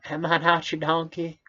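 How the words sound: It is read in a put-on character voice.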